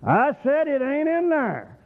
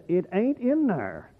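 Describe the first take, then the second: First: Higher, louder repeat of ain't in there. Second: Slow, deliberate, stress on in; emphatic it ain't in there. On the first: Preacher repeating his point to the church, louder. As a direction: say it again louder, driving it home. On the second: Preacher to congregation, slow emphatic statement. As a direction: lay it down slowly, hit in. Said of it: "I'm gonna say it like this". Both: Shown as a demonstration.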